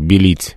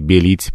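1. Первый гласный редуцированный, меньше похож на 'e'. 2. Первый гласный — чёткий звук 'e'. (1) "белить московское" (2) "белить петербургское с более четким «э»"

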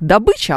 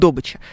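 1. Ударение падает туда, куда его ставит большинство говорящих. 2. Ударение падает на другой, профессиональный слог. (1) "У нас будет вот у всех добыча" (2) "а у нас будет добыча"

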